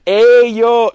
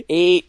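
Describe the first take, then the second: First: Put-on higher, louder Cholo accent greeting; hammed-up Cholo accent callout; bad Cholo accent. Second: Put-on corrected Cholo accent greeting, a bit louder; retry the Cholo accent, toned down; bad Cholo accent. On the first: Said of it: "Charlie and Mac are speaking like this". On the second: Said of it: "My accent's really bad".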